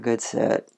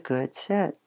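First: The praise is said flatly, without feeling. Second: The praise is said quietly and very calmly. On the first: The praise carries no real meaning. The speaker calls it wrong. "you don't want to do it like it doesn't have any meaning" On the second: The praise keeps the puppy calm and focused. The speaker calls it right. "sometimes it's just really calm"

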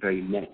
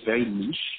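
First: Niche is pronounced the American way. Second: Niche is pronounced in a non-American way.

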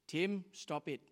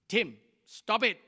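First: It is said at a normal, calm volume. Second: It is said with a loud, raised voice. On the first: A first, ordinary warning. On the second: The warning is stronger after being ignored.

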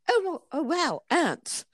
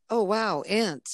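First: It is said in a British accent. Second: It is said in the speaker's own accent. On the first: The speaker calls it right. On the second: The speaker calls it wrong.

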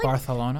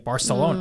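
First: It is said with a Spain Spanish 'th' sound. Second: It is said with a Latin American 's' sound.

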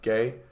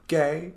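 First: It is said flatly with little expression. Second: It is said with lively, animated expression.

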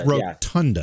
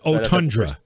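First: It begins with an R sound. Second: It begins without R, with R later. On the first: The speaker calls it right. "It's not. It's rotunda" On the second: The speaker calls it wrong. "You called it otundra. So you move the R"

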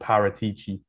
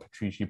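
First: The name has a vowel between P and R. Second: The name has no vowel between P and R. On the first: The speaker calls it right. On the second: The speaker calls it wrong. "I mispronounced the name. Not Petrici"

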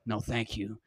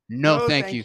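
First: It is said in a tired, low-energy way. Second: It is said with energy and force. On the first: The speaker calls it right. "I was tired" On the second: The speaker calls it wrong. "And I didn't even say it like that"

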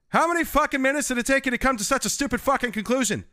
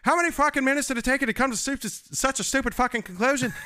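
First: It is spoken in a Canadian accent. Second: It is spoken in an Irish accent. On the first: "what's a line from that show where he's like" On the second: "Take that, Irish"

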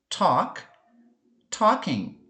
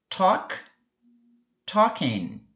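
No difference in how they are said.

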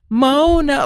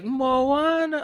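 First: The name is said with two syllables. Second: The name is said with three syllables. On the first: It is the plain everyday version. The speaker calls it wrong. "it wouldn't sound good if it was like, Mona. Like, there had to be the third syllable" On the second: It is a cute version used in the song. The speaker calls it right. "it's like a cute, like, Moana. Like trying to make it cute"

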